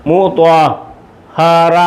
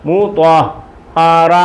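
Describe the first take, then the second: The two takes are said the same way.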